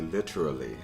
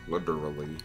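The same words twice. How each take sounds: First: The middle consonant is a crisp T sound. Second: The middle consonant is a hard D sound. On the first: The speaker calls it right. "you sound totally like a like a an upper class Brit if you pronounce it correctly and say literally" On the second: The speaker calls it wrong. "It's not like a hard D, so it's not like liter literally"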